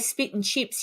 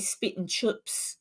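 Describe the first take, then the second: First: It is said in an Australian accent. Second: It is said in a New Zealand accent. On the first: "you wouldn't say spit and chips" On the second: "Kiwis do have a slightly different accent to us"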